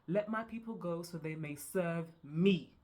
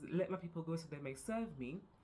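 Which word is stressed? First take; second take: me; go. First: The stress falls on the word me. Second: The stress falls on the word go.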